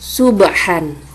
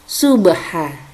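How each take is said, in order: First: The word ends with an n sound. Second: The word ends on a vowel, no n. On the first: This is the written form with tanwin. "terdapat kalimat subhan" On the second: This is how it is read when stopping at the verse end. "maka membacanya berubah menjadi subha"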